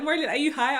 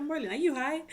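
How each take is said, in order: First: Laughing tease. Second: Said in the usual way. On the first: Retold or imitated. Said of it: "He was like". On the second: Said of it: "she was like".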